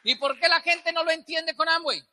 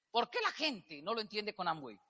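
First: Said in the usual way. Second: Much softer, lower, almost to himself; quiet repeat. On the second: Shown as a demonstration. Speaker asks the audience again, softly. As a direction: drop the voice and ask it again.

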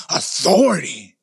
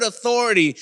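First: Low, drawn-out, growled disdain; resentful growl. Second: Said in the usual way. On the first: Acted. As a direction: growl the word slowly, as if it offends you. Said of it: "something inside of you just growls". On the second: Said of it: "just the sound, the word authority".

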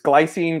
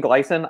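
First: Long ee in the last syllable of Glycine; alternative pronunciation. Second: Short, reduced vowel at the end of glycine; alternative pronunciation. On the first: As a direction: say Glycine ending in a long "seen". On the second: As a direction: say glycine with a short ending, "GLY-sin". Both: Shown as a demonstration. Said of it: "the way I'm pronouncing it".

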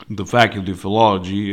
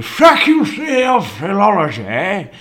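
First: Said in the usual way. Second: High, mock-fancy put-on voice; loudly mock the institution's name; mocking name-drop. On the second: Mocking name of his old college.

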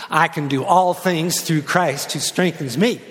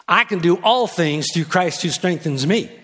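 First: Slow, drawn out chant with rising end; chanted, lead the crowd through it slowly; slow group chant. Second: Chanted hook line with a punch on all; rapped, lead the chorus line once. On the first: Pastor leads congregation in unison, slow chant. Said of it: "say it with me". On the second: Pastor raps the hook to the congregation, chanted. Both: Shown as a demonstration.

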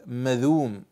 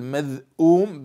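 First: "مذوم" as ma-dhuum, no glottal stop; pronounced without hamza. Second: "مذءوم" as madh-'uum, with a clear glottal stop; pronounced with hamza. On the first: Teacher contrasting the two readings, this one without hamza. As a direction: glide through "مذوم" straight into the long u. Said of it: "بدون همز". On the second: Teacher contrasting the two readings, this one with hamza. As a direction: split "مذءوم" at the hamza before the long u. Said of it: "بالهمز". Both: Shown as a demonstration.

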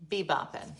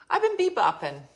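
First: Said in the usual way. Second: Upbeat and higher on bebopping; sing-song bebopping with a lift; playful high bebopping; bouncy. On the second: Real, not acted.

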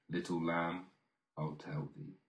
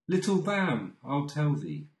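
First: Much softer, fading almost to a whisper; soft echo. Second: Little lamb lifted high, then falling; high eager call. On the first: Reader echoes the promise to the lamb, hushed and soft. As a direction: let the refrain die away gently. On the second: Reader calls to the lamb, high and eager. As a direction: call out to the lamb with a raised, bright pitch. Poem refrain, first of two takes. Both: Acted.

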